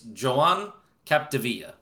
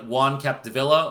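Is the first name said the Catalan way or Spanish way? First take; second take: Catalan; Spanish. First: The first name is said the Catalan way. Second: The first name is said the Spanish way. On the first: The speaker calls it right. "So it's Catalonian" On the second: The speaker calls it wrong. "you might think it's like Juan Capdevila"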